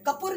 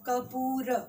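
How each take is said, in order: First: The second vowel is clipped short. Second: The second vowel is drawn out long. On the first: The speaker calls it wrong. "कपूर नहीं बोल रहे" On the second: The speaker calls it right. "यहाँ पे खींच के बोल रहे हैं"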